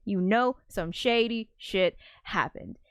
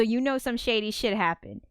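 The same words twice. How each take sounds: First: "shady shit happened" slowed and spaced out; emphatic repeat. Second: Said in the usual way. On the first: Shown as a demonstration. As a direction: spell out "shady shit happened" word by word, knowingly.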